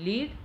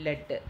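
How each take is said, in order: First: ലീഡ് with a long ee; ലീഡ് as "leed", long vowel; present-tense pronunciation. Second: ലെഡ് with a short e; ലെഡ് as "led", short vowel; past-tense pronunciation. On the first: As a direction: say ലീഡ് to rhyme with "need". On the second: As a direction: say ലെഡ് to rhyme with "bed". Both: Shown as a demonstration. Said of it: "വ്യത്യസ്ത രീതിയിൽ pronounce ചെയ്യുന്നതും".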